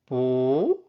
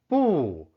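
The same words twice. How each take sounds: First: The syllable is said with a rising tone. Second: The syllable is said with a falling tone. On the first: "second tone" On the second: "fourth tone"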